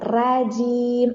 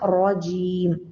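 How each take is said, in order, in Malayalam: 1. r ലഘുവാണ്, കനം കുറഞ്ഞ 'a' സ്വരത്തോടെ. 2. r കനത്തതാണ്, കൂടുതൽ ഇരുണ്ട സ്വരത്തോടെ. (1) "റാജീം എന്നാരും പറയരുത്" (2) "ഉയർത്തി പിടിച്ച"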